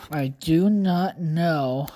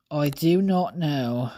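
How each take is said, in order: First: Slow, drawn-out mock British "I do not know"; each word of "I do not know" spaced out in a posh British voice; British accent. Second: Quick, offhand British "Oh, I do not know"; British accent. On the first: Puzzled vlogger lapses into slow British accent. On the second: Pretend. Vlogger shrugs again, lightly British. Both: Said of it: "I don't know why I became British".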